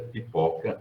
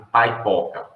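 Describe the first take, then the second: First: The first vowel is a plain Portuguese 'ee' sound. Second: The first vowel is an English-style 'eye' sound. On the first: "a palavra escrita é pipoca" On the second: "as vogais notadamente pronunciadas em inglês"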